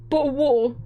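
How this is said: It is said in a British accent. "British people say"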